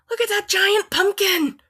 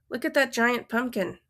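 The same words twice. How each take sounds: First: It is said with excitement. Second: It is said as a plain statement.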